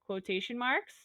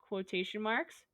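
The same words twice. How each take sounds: The two takes are said the same way.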